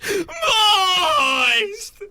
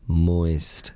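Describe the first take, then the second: First: The word is screamed in panic. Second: The word is said in a normal voice.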